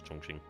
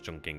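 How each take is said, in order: First: It is said with a Chinese-style pronunciation. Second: It is said with an English-style pronunciation. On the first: "I'm going to go with the Chinese pronunciation" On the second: "I know it says Chongqing"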